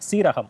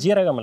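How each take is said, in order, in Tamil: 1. சொல் ஸ ஒலியில் தொடங்குகிறது. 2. சொல் ஜ ஒலியில் தொடங்குகிறது. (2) "நிறைய பேர் அதை ஜீரகம் தான் சொல்றாங்க. அது ஜீரகம் இல்ல"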